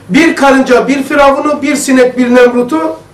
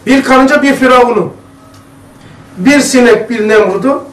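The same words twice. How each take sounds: First: The phrase is read at a normal pace. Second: The phrase is read slowly and deliberately.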